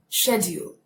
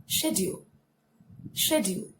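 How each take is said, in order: First: "schedule" in a put-on British accent. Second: "Schedule" as shed-yool, softly, no put-on accent; British pronunciation, unaccented. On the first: Teacher showing the word when she has the accent, British accented. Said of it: "When I have the accent". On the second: Teacher speaking like a normal person, British pronunciation without accent. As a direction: articulate "Schedule" with sh, in an everyday voice. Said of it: "when I speak like a normal person". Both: Shown as a demonstration.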